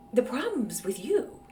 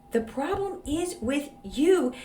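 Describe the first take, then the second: First: Said in the usual way. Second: "The problem is with you" said slower, each word weighed; slow emphatic repeat. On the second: Real, not acted. Host repeating her blunt verdict to the writer, slow and emphatic. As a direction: lean on it and slow it down.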